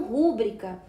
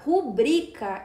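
First: Rúbrica stressed on the first syllable, RÚ-bri-ca; wrong pronunciation RÚ-bri-ca. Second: Rubrica stressed on BRI, ru-BRI-ca; correct pronunciation ru-BRI-ca. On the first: Teacher showing the common wrong rúbrica. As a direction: mark the mistake: RÚ-bri-ca. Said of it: "e não rúbrica". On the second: Teacher correcting students' rúbrica to ru-BRI-ca. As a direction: say rubrica with the stress on the middle syllable. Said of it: "o certo é se pronunciar rubrica". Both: Shown as a demonstration.

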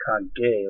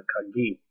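First: Kage ending in an "eh" sound; wrong word, Kage. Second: Kagi ending in an "ee" sound; right word, Kagi. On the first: Telling viewers which word it is not, contrasting pronunciation. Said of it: "I, not Kage". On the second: Telling viewers the word means key, corrective pronunciation. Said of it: "but Kagi, key". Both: Shown as a demonstration.

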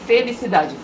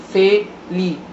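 First: Said in the usual way. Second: "felicidade" broken up syllable by syllable "fe-li-ci-da-de"; "felicidade" pronounced syllable by syllable; split into syllables. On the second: Shown as a demonstration.

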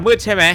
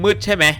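The two takes are said the same way.

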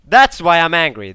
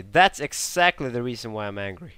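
First: Loud, higher angry outburst. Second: Said in the usual way. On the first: Real, not acted. Gamer venting anger at air support. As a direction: bark it out, fed up. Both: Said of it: "a bit more angry than usual".

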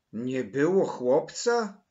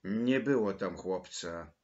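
First: Loud, drawn-out incredulous question; insistent. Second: Mildly timid, apologetic answer. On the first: Maryla questions Mateusz about the missing boy, insistent disbelief. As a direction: throw it back in loud disbelief. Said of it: "nalegała Maryla". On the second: Mateusz answers Maryla about the boy, mildly timid. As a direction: answer with a touch of shyness. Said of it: "odpowiedział Mateusz nieśmiało". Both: A narrator's reading.

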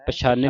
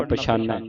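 First: ਪਛਾਨੈ with a narrow e ending; misreading ending. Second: ਪਛਾਨੈ with an open ai ending; corrected ending. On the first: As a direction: narrow the last vowel of ਪਛਾਨੈ to e. (ਪਛਾਨੈ ਲਾਂ ਦੀ ਆਵਾਜ਼ ਨਾਲ) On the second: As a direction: open the last vowel of ਪਛਾਨੈ to ai. (ਪਛਾਨੈ ਦੁਲਾਵਾਂ ਨਾਲ) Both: Shown as a demonstration. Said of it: "ਪਛਾਨੈ ਨਹੀਂ ਪੜਨਾ".

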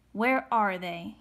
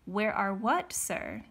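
First: Slow, forceful question; demanding. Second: Mildly puzzled question, dropping on sir; feigned innocence. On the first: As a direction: demand it, weighting each word. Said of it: "he demanded". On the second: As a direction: play innocent with your accuser. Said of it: "trying to appear innocent". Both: A narrator's reading.

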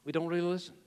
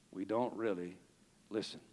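First: Said in the usual way. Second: Soft, low and hushed; dropped low and soft; quiet take. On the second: Shown as a demonstration. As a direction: say it almost to yourself. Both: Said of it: "repeated at full voice".

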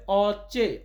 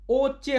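First: "অচে" opened with an open aw sound; correct pronunciation. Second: "ওচে" opened with a rounded o sound; wrong pronunciation. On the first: Teacher corrects the Polish word for eye, slow "অচে" with open অ. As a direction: say "অচে" slowly, starting on open অ, not ও. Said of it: "এটা হবে অচে". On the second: Teacher warns Polish learners off the word for eye, mispronounced as "ওচে" with o. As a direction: say "ওচে" with a closed o as the mistake. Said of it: "ওচে হবে না". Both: Shown as a demonstration.

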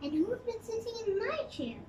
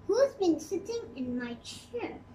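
First: Higher and softer, a moaning mother bear; softer, higher plaintive mommy bear. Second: Barely growled, close to the reading voice; a light touch of a gruff papa bear; understated growl from the big bear; Daddy Bear growl. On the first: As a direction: lift the voice and moan it gently. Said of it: "moaned Mommy Bear". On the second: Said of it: "growled Daddy Bear". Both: A narrator's reading.

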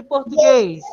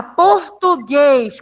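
First: Said in the usual way. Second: "Português" very slowly, syllable by syllable, long GUÊS; slow syllable demo. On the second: Shown as a demonstration. Teacher quizzes class on tonic syllable, slow stressed "Português". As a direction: break up "Português" and stretch the final GUÊS. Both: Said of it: "Qual a sílaba tônica de português?".

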